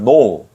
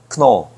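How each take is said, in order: First: The k sound is silent before the n. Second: A clear k sound comes before the n. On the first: "K 발음이 묵음이 됐어요" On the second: "크 발음이 살짝 들어가 있는데 제가 조금 세게 발음해서 크노"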